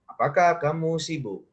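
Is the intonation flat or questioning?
flat. It is said with a flat intonation. The speaker calls it wrong. "jangan datar-datar aja ... nggak begitu ya kan?"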